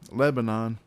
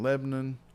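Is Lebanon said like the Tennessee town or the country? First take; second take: country; Tennessee town. First: It is said the usual country-name way. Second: It is said the local Tennessee-town way. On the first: It names the country in the Bible. The speaker calls it right. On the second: It names the town near Nashville. The speaker calls it wrong. "I've gotten into the habit"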